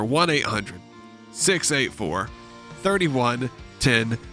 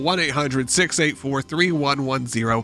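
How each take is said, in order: First: The number is read slowly. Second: The number is read at normal speed.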